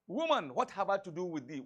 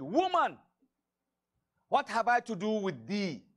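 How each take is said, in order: First: Said in the usual way. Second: Stern rebuke. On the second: Acted. Jesus rebuking his mother at the wedding, loud and stern. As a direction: cut her off sharply with Woman.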